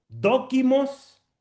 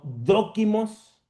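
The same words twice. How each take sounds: First: "Dokimos" said very slowly, stress on the first O; slow teaching read of "Dokimos", first O stressed. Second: "dokimos" repeated very slowly, first O stressed. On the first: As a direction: spell out "Dokimos" slowly, leaning on DO. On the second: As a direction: say "dokimos" slowly again, leaning on DO. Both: Shown as a demonstration. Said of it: "con un acento en la O".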